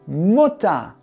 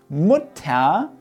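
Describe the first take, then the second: First: The ending is an 'a' sound. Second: The ending is a clear 'er' sound. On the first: The speaker calls it right. "wir sprechen hinten eigentlich ein A" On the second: The speaker calls it wrong. "Wir sagen nicht Mutter"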